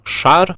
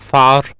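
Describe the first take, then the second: First: Said in the usual way. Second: Шар said as «фар» with f; labiodental lisp. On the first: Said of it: "вы хотите сказать". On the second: Shown as a demonstration. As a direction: replace ш with ф in «фар». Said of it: "у вас получается".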